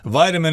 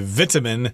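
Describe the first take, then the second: First: It is said with an American pronunciation. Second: It is said with a British pronunciation. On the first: "is the American pronunciation" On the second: "I believe they say vitamin in the U K"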